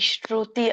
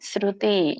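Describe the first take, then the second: First: The word begins with a 'sh' sound. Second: The word begins with an 's' sound. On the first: The speaker calls it wrong. "ಇಲ್ಲಿ ಶ್ರುತಿ ಅಲ್ಲ" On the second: The speaker calls it right. "ಸ ಇದೆ"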